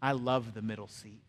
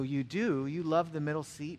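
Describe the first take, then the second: First: Low-pitched, lightly voiced old man; confiding elderly gentleman. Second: Questioning echo in his own voice; mildly surprised echo. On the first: Elderly seatmate confiding in the preacher, low and understated. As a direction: lean in and confide it in a lower voice. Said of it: "he leaned in". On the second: Retold or imitated. Preacher answering his elderly seatmate, mildly surprised. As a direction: repeat it back as a puzzled question. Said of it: "I go".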